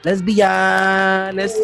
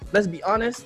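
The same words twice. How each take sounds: First: The phrase is drawn out slowly. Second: The phrase is said quickly. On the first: The line lands with weight and you can feel it. The speaker calls it right. "he had the way to drag it in" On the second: The line would feel skippable. The speaker calls it wrong. "if you just said it fast"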